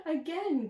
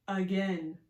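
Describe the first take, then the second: First: High, loud laughing shout; gleeful cry. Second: Loud demand at usual pitch; eager cry. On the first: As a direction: squeal for another go, laughing. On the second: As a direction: call out wanting another go. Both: Acted. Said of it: "cries Cat and Frankenstein".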